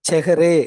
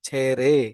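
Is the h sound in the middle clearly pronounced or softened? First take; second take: clearly pronounced; softened. First: The h sound is clearly pronounced in the middle. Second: The h sound is softened almost to nothing. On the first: The speaker calls it wrong. "செஹரே அப்படின்னு வராது" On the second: The speaker calls it right. "இந்த ஒளி வடிவம் அப்படியே down ஆயிருது"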